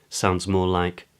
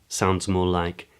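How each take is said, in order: No difference in how they are said.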